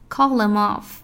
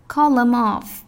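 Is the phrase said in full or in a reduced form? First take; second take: reduced; reduced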